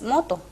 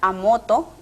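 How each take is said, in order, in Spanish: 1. La palabra empieza directamente con el sonido M. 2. Se añade un sonido A antes de la palabra. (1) "La palabra correcta" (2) "agregarle la vocal A al comienzo"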